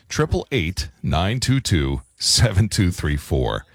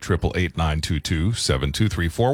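First: The number is said slowly. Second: The number is said at normal speed.

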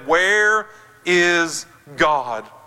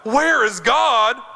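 First: It is spoken sternly, not shouted. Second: It is bellowed out loudly.

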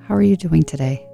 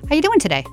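First: It is said warmly in a deeper voice. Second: It is said lightly and offhandedly.

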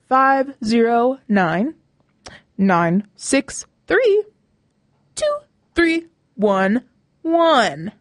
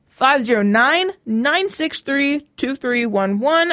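First: The number is read more slowly. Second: The number is read at normal speed.

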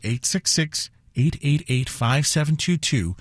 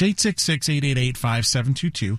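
First: The number is read slowly. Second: The number is read at normal speed.

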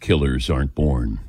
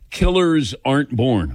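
First: It is said in a dramatic announcer voice. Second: It is said in a normal speaking voice.

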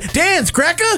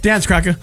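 First: It is said slowly and drawn out. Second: It is said fast, like a demand.

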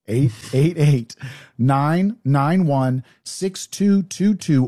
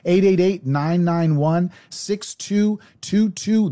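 First: The number is said slowly. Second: The number is said fast.

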